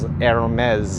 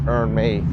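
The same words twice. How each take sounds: First: The name is said in a fancy, refined way. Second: The name is said in a plain, ordinary way. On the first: The speaker calls it right. "You gotta say it really fancily" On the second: The speaker calls it wrong. "it's not Hermes"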